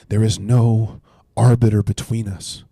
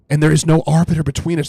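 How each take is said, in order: First: Slow, deliberate reading of scripture; read slowly. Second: Higher and louder, pressing the point; emphatic. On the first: Shown as a demonstration. Pastor reading Job's line slowly to his viewers, deliberate. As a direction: give every word its weight, unhurried. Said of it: "I wanna read it slowly". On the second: Real, not acted. Preacher driving the verse home to listeners, emphatic and louder. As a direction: proclaim it with urgency.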